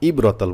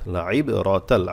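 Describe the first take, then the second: First: It begins with a plain glottal stop. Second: It begins with a deep throat consonant. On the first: The speaker calls it wrong. "হামজা হয়ে যাবে, ভুল হবে" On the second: The speaker calls it right. "আইন অবশ্যই গলা থেকে আনবেন"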